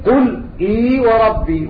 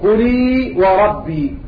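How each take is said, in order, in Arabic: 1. تُنطق الهمزة كاملةً. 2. تُحذف الهمزة وتتصل الكلمتان ببعضهما. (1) "التحقيق" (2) "والتسهيل"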